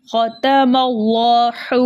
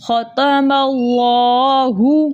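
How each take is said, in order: First: ختم اللہ with the final ہ turned into a kind of و, said slowly; the mistaken ختم اللہ, final ہ turned to an و sound; wrong pronunciation. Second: ختم اللہ chanted very slowly, final ہ clear from its proper place of articulation; correct pronunciation. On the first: Teacher shows students the wrong way, slowly mispronounced. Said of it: "ایسے نہیں کرنا ہم نے". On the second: Teacher shows students the correct way, slow chant. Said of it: "ہم نے پڑھنا ہے". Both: Shown as a demonstration.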